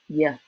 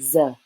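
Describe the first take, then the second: First: The letter is said with a Y sound. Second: The letter is said with a Z sound. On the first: This is the southern pronunciation. "In the South" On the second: This is the northern pronunciation. "In the North, people use the Z sound"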